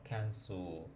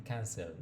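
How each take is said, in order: First: Cancel said kanso, lips slightly rounded at the end; correct pronunciation. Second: Cancel said kansel, full clear e and l; wrong pronunciation. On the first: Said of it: "Hay que cerrar un poquito como los labios". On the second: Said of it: "aquí no suena como lo he escuchado". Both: Shown as a demonstration.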